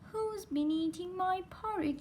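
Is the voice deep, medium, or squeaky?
squeaky. It is said in a tiny, squeaky voice. A little bear is speaking. "squeaked Baby Bear in his tiny voice"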